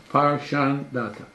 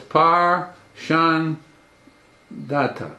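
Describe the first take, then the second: First: Said in the usual way. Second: "Par Shan Data" said slowly, each syllable set apart with a pause before "Data"; syllables split apart. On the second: Shown as a demonstration. Teacher breaking Haman's son's name into syllables for the class, slow and deliberate. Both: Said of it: "it's either three syllable or two syllable".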